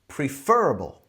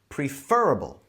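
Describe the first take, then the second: First: The stress is on the second syllable. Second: The same.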